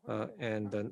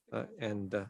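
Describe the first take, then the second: No difference in how they are said.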